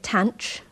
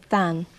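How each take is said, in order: First: It is pronounced like 'tanch', ending in 'ch'. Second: It is pronounced like 'than', starting with 'th'. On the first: "Some people call it tanch" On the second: "I in this video will call it than"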